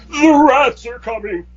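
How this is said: It is said in a dramatic, echoing voice.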